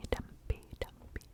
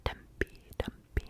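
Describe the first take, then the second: No difference in how they are said.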